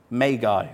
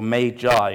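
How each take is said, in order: First: "magi" said MAY-guy; magi with hard g. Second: "magi" said MAY-jai; "magi" with g as in gem; magi with soft g. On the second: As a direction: say "magi" with a j sound in the middle. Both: Shown as a demonstration. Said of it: "as some people say".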